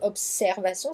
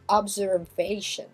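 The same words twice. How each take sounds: First: The s is a hissing s sound. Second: The s is a buzzing z sound. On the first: "chez nous c'est observation, ça se prononce comme un S" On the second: "mais ici en anglais ça se prononcera Z"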